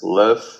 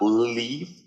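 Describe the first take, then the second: First: The word has a short i vowel. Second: The word has a long ee vowel. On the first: The speaker calls it right. "it's live" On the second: The speaker calls it wrong. "it's not leave"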